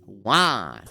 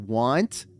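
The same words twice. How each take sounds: First: The word is cut short, dropping the nt. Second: The word is said in full, ending in nt.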